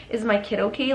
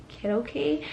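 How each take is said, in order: First: Said in the usual way. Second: Small, soft, embarrassed question; retold sheepish asking, voice dropped in volume. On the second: Mother asking after her baby in labor, embarrassed. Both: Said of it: "I got embarrassed and I was like".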